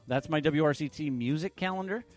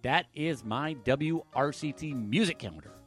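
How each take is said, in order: First: It sounds like a questioning rise. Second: It sounds like an emphatic, definite exclamation.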